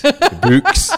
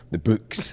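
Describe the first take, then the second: First: The books, high and loud with a Scottish vowel; Scottish accent. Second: Scottish vowel in books; Scottish accent. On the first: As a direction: books sounded the Scottish way, pitched way up. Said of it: "It's my Scottishness coming out". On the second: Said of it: "It is your Scottish accent". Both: Shown as a demonstration.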